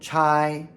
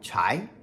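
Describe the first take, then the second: First: The pitch stays high and level. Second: The pitch rises from middle to high. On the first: "First tone" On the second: "second tone"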